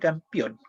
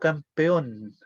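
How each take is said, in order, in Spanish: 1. La vocal del medio se dice como i. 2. La vocal del medio es una e clara. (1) "siempre decía campeón, con I" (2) "Una palabra tan simple como"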